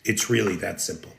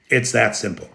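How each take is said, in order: First: Really softly stressed and quick, dropped low; quiet emphasis. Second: Said in the usual way. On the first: Real, not acted. Commentator repeating his point to viewers, quieter. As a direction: lower and softer, leaning on really.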